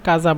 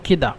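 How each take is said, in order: First: The middle consonant is a z-like sound. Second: The middle consonant is a d sound. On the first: This is the standard written form. "কাফ জাল আলিফ" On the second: This is how it is said in Egyptian dialect. "মিশরেরা জালকে দাল বলে, এই জন্য কেদা"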